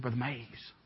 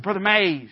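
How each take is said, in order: First: Low, very soft call; hushed appeal. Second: Imitated insistent call, only lightly raised; mild mock holler. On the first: Retold or imitated. Uncomfortable pastor to the visiting preacher, hushed first appeal. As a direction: discreetly try to get his attention. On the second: Exasperated pastor to the preacher ignoring him, half-hearted holler. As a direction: call his name more firmly, without shouting. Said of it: "He kept hollering at him".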